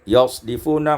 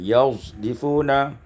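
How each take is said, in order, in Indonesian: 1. Bunyi s-nya adalah s murni yang bertekanan. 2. Bunyi s-nya bercampur dengan bunyi z.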